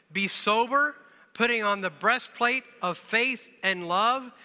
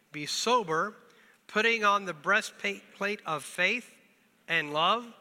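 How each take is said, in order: The two takes are said the same way.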